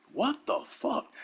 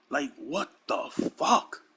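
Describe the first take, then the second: First: High disbelief. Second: Said in the usual way. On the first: Real, not acted.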